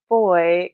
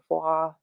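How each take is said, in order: First: The name is said with an American pronunciation. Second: The name is said with a French-sounding pronunciation. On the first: "kind of our American pronunciation" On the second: "more French or Belgian sounding"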